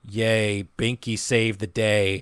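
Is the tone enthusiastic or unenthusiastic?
unenthusiastic. It is said flatly, without enthusiasm.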